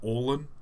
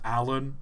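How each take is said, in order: First: The name begins with an 'or' sound. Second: The name begins with a short 'a' sound. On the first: The speaker calls it wrong. "not Orlan" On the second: The speaker calls it right. "it's pronounced Alan"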